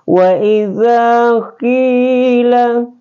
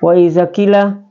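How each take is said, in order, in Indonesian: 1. Vokal pada 'qi' dibaca dua harakat. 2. Vokal pada 'qi' dibaca pendek. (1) "tapi wa iza qila ya" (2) "jadi bukan wa iza qila ya, ya salah ya"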